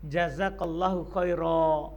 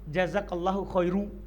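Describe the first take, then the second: First: The last word ends in a long a. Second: The last word ends in -u. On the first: The speaker calls it right. "kita berhenti dengan alif" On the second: The speaker calls it wrong. "yang salah kalau kita bilang jazakallahu khairu, kita dhammah"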